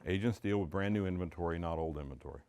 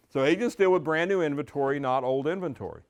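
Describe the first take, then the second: First: Said softly and low, almost to himself; quiet, low statement. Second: Louder, with a strong push on deal; emphatic restatement. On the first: Coach quietly sets up the idea for agents, soft and low. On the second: Coach repeats the key idea to agents, louder and emphatic. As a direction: coach driving the point home, punching the word deal. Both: Shown as a demonstration. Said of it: "Huge concept for a seller".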